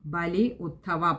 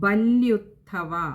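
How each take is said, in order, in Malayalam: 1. വാക്കുകൾ വേറെ വേറെ ഭാഗങ്ങളായി പിരിച്ചു പറയുന്നു. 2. വാക്കുകൾ ഒന്നിച്ചുചേർന്ന് ഒരു രൂപമായി പറയുന്നു. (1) "പദം പിരിക്കണ്ട" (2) "ചേർത്ത് വായിക്കുക"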